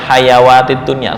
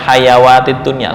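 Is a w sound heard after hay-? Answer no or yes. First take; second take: yes; yes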